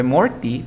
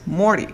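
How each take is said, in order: First: Morty with a full T, "Mor-tee"; "Morty" keeping the T after the R; spelled pronunciation. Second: Morty said "Mor-ee", no T; "Morty" with the T left out; dropped T. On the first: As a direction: say "Morty" as written, T sounded. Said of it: "Se escribe Morty". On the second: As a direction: say "Morty" sliding from R into the vowel. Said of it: "pero tú dices Morty". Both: Shown as a demonstration.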